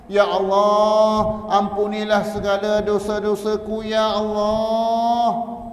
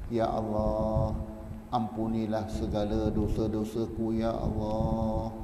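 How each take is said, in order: First: High, loud, drawn-out cry to God, very slow; wailing plea. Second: Pleading prayer. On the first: Preacher demonstrates how to beg God for forgiveness, wailing plea. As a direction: stretch each Ya Allah into a long, high lament. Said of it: "merayu, merintih kepada Allah". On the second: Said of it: "Merayu kepada Allah". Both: Shown as a demonstration.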